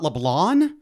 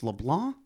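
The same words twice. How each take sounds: First: The final N is fully and hard sounded. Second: The final N is only barely sounded. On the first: The speaker calls it wrong. "Do a hard N. So it's not LeBlanc" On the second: The speaker calls it right. "you almost say the N, but not quite"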